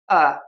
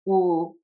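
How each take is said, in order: First: The R sounds slack like uh. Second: The R sounds rounded like oo. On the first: "or they relax too much" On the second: "some people pucker too much"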